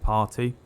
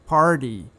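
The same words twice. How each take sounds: First: It is said with an English accent. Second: It is said with an American accent.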